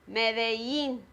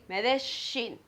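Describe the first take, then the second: First: The double L sounds like a y. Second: The double L sounds like sh. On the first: "the pronunciation is ya, like Medellin" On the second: "like the sh ... Then you would say Medellin"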